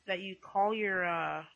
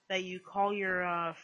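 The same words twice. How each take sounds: The two takes are said the same way.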